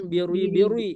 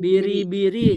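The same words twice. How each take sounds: First: "birui-birui" dengan ri dibuat tebal seperti ada u; ri salah ditebalkan. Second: "Biri-biri" dengan ri tipis, tanpa bunyi u. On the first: (contoh salah, ri ditebalkan) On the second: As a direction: ucapkan "Biri-biri" ringan dan tipis. (biri-biri dibaca tipis) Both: Shown as a demonstration. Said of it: "jangan birui-birui".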